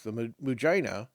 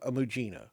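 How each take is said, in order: First: The name is given a jokey mispronunciation. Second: The name is given its standard pronunciation. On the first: It is said for comic effect. The speaker calls it wrong. "to use the comedy use" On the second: It is the proper way to say it. The speaker calls it right. "which I think is probably the proper pronunciation"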